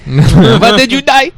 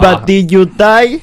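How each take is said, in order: First: High, slow laughing movie quote; drawn-out squeaky quote voice; Mr. Chow impression. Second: High, slow mock Mr. Chow voice; slow squeaky movie quote; Mr. Chow impression. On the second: Quoting famous Mr. Chow line.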